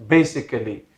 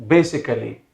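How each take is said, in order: The two takes are said the same way.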